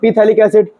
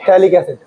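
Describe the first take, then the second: First: The word begins with a clear P sound. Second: The word begins without any P sound. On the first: It helps to remember the spelling. "तो मैं पीथैलिक acid पढ़ता हूं इसको, ताकि spelling लिखने में दिक्कत ना हो।" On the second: This is the actual name of the compound. "पी silent होता है"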